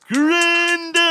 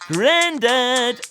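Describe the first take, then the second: First: It is yelled at full loudness. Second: It is shouted at a moderate loudness.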